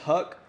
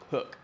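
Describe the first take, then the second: First: The vowel sounds like the one in duck. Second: The vowel sounds like the one in book. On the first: The speaker calls it wrong. "I always say that wrong" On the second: The speaker calls it right. "It's Hook"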